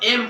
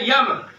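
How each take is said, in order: First: The letter name begins with a plain vowel. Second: The letter name begins with a y sound. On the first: The speaker calls it right. "लेकिन इसको एम पढ़ा जाता है" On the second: The speaker calls it wrong. "इसको पढ़ते हैं यम"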